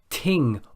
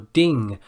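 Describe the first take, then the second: First: The word begins with a t sound. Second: The word begins with a d sound.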